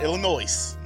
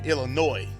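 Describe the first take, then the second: First: It ends with an S sound. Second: It ends without an S sound. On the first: The speaker calls it wrong. "not Illinois" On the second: The speaker calls it right. "No S"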